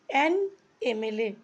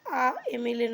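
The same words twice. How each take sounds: First: "অ্যান MLA" with a clear "অ্যান" sound; correct article. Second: "আ MLA" said with a short "আ" before MLA; wrong article. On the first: Teacher shows students the correct form "অ্যান MLA". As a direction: join "অ্যান" smoothly to MLA. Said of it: "অ্যান বসাবো". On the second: Teacher shows students the wrong form "আ MLA". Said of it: "নয়". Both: Shown as a demonstration.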